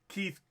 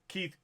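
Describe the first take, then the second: The two takes are said the same way.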